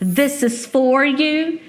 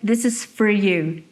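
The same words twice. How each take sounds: First: The vowel in 'for' is full and clear. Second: The vowel in 'for' is reduced to schwa.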